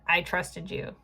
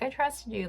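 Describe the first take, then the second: First: It sounds bitter and hurt, like betrayal. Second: It sounds warm and genuinely trusting.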